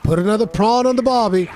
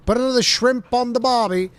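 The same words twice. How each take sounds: First: Loud, high mock Australian accent, stressing prawn; corrected Aussie line. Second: High, hammed-up Aussie accent on the old line; mock Australian cliché. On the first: Streamer showing the corrected Australian phrase, loud mock Australian accent. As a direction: proudly say it the right way in a put-on Australian twang. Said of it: "I always said".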